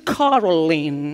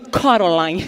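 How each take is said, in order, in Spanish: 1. Se dice el nombre con acento del inglés estadounidense. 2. Se dice el nombre con acento puertorriqueño. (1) "aquí en Estados Unidos es" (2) "A lo borico es"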